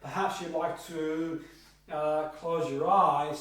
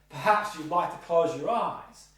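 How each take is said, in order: First: There is a pause before close your eyes. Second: It is said without a pause before close.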